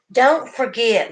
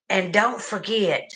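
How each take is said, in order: First: "don't forget" said slower, louder, higher; emphatic repeat. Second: Said in the usual way. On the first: Real, not acted. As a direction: lean on "don't forget", slow and pressing.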